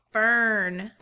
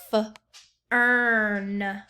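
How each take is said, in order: First: Said in the usual way. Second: "F-ern" split into f and a long ern; segmented sounds. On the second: Shown as a demonstration. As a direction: stretch it apart as F-ern. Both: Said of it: "what about fern?".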